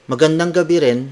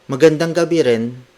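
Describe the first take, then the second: No difference in how they are said.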